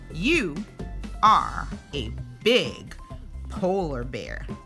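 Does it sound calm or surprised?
calm. It is read in a calm, plain tone.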